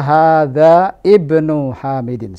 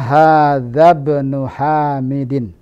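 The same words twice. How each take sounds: First: The vowel before ibnu is pronounced separately. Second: Hadza runs straight into bnu, skipping the vowel. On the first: The speaker calls it wrong. "tidak boleh salah kalau kita baca" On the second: The speaker calls it right. "Yang benar adalah"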